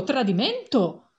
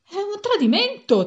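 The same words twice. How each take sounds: First: Repeated outraged cry. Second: Loud and high, falling hard on tradimento; outraged shout. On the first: Passenger repeating his cry of betrayal, slower and heavier. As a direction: drag out the second tradimento as a sore echo. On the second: Passenger shouting that the bus betrayed them, outraged yell. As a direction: cry betrayal at the top of your voice. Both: A narrator's reading. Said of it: "si mise a gridare".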